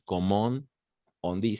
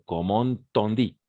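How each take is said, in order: First: The words are said separately, without a link. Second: The words run together like one word. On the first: The speaker calls it wrong. "No es" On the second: The speaker calls it right. "Sino ¿cómo on dit? Como una sola"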